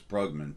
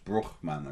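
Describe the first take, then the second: First: The name is said the plain, non-Dutch way. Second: The name is said the Dutch way. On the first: "but it's Brugman" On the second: "there's a pronunciation in the Netherlands"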